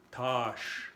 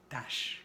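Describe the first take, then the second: First: "tâche" with a long, rounded A; circumflex A. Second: "tâche" with a short, open A, as "tache". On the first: Teacher demonstrating pronunciation, long round A in "tâche". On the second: Teacher contrasting for learners, short open A in "tâche". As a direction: keep the A of "tâche" quick and unrounded. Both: Shown as a demonstration. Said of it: "a ver la pronunciación".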